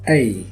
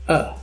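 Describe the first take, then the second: First: The vowel is a full, unreduced vowel. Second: The vowel is reduced to a schwa. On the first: "its strong form is pronounced A" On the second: "Its weak form is pronounced A. This is schwa sound"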